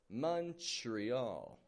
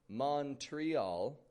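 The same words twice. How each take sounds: First: The first vowel is U, with a CHR sound. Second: The first vowel is O, with a clear TR. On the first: The speaker calls it right. "O becomes a U, and T R becomes a chur" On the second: The speaker calls it wrong. "don't give it a Montreal"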